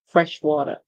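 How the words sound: It is said in an American accent.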